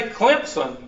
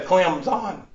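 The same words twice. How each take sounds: First: "Clemson" said as Klemp-sun with a p sound; "Clemson" with a p slipped in, Klemp-sun, the local way; Southern pronunciation. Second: "Clemson" said as Clem-zun with a z and no p, a bit slower; "Clemson" as Clem-zun, the careful TV way; ESPN pronunciation. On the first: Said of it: "if you say Clemson, you're a Southern racist". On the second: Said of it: "they don't say Clemson. They say Clemson". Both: Shown as a demonstration.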